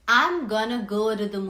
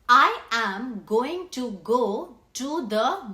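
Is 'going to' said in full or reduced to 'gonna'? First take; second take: reduced; full. First: The words are contracted and reduced to gonna. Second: Each word is said fully and separately. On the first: "What they say instead is" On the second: "the native speakers do not use this whole sentence as it is"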